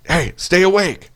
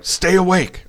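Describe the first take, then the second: First: A slower, pitched-up mock command with a sharp "Hey". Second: A lightly voiced buddy, pitched up, telling him firmly to stay awake; mock-bark it up high like a friend keeping him conscious; friend's order. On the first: Buddy slaps him again, a slower, insistent high order. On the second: Buddy slapping the wounded narrator, a mildly raised order. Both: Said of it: "He's like".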